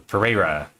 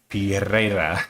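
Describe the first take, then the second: First: The name is said with flat English sounds. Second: The name is said with Spanish-style sounds. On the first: It ignores the name's cultural origin. "the very like you know blase, ignoring any cultural like influence version"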